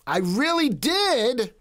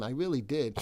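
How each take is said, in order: First: Did drawn out high and slow, a mock-pleading I really did; high, slow mock whine. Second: Said in the usual way. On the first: Shown as a demonstration. Streamer to chat, whining high and slow. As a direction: stretch the words high and slow like a whiny plea.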